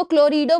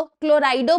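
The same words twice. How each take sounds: First: क्लोरिडो pronounced klo-ree-do, not klo-rai-do; "ee" pronunciation variant. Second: क्लोराइडो pronounced klo-rai-do, not klo-ree-do; "eye" pronunciation variant. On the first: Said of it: "इसको क्लोरिडो बोल दो". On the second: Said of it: "क्लोराइडो बोल दो". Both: Shown as a demonstration.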